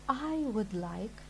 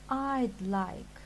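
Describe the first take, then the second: First: Each word is said fully and separately. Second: 'I would' is shortened to one quick syllable.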